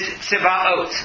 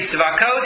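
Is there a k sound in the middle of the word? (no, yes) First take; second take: no; yes. First: The middle has no k sound. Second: The middle has a k sound. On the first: This is the name as literally written. "if you read it literally and pronounce it properly is Tzivaot" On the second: This avoids saying the holy name outside prayer. "The reason I say Tzivakot"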